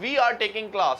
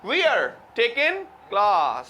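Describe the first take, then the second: First: Said in the usual way. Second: Slow British English, "We are" merged into "wear", "taking" without the g; British accent. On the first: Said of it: "हम कहते हैं". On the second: Shown as a demonstration. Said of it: "वो कहते हैं". (British लहजे में, "We are" को "वीयर" बोलते हुए)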